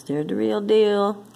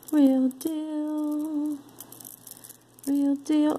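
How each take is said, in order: First: Said in the usual way. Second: High playful singsong "Real deal". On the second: Pretend. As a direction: chant it like a little tune. Singsong echo, much higher.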